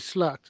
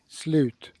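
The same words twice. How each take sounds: First: It is pronounced with English vowel and sounds. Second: It is pronounced with Swedish vowel and sounds.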